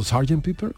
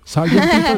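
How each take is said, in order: First: Said in the usual way. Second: The sudden bright idea, exclaimed; excited realisation. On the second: Retold or imitated. Host reenacting how [name] heard the name, exclaimed. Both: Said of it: "entendió Sergeant Pepper".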